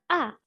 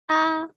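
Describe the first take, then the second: First: The pitch falls sharply from high. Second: The pitch stays level and high.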